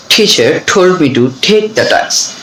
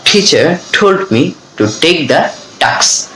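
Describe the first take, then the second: First: "Teacher told me to take the task" drawn out very slowly; slow practice sentence. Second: Slow final model of the sentence; very slow model reading. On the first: Teacher reads the t drill sentence very slowly. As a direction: linger on each t. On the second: Teacher gives a final slow model of the drill. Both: Shown as a demonstration. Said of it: "এভাবে কিন্তু আমরা বলবো".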